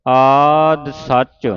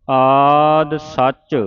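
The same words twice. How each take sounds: The two takes are said the same way.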